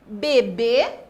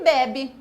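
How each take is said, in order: First: "Bebê" with loud final BÊ; stress on last syllable. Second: "bebe" with loud opening BE; stress on first syllable. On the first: Teacher contrasts accented word for pupils, "Bebê" stressed on BÊ. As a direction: say "Bebê" leaning on the closing syllable, loudly. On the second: Teacher contrasts unaccented word for pupils, "bebe" stressed on first BE. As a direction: say "bebe" hitting the first syllable, letting the second drop. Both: Shown as a demonstration. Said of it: "Veja aqui o exemplo".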